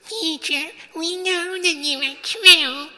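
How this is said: It is said in a fawning, insincere tone.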